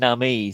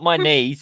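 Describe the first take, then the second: First: The ending sounds like 'nah-meez' with an ah vowel. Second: The ending sounds like the words 'my knees'. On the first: The speaker calls it right. "it's Namis" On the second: The speaker calls it wrong. "It's not my knees"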